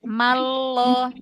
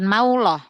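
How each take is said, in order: First: It goes straight to the 'l' with no 'w'. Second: The lips round, adding a 'w' before the 'l'. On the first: The speaker calls it right. "langsung ke makhraj huruf lam ya, jangan ada gerakan bibir" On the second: The speaker calls it wrong. "Bukan mauloh"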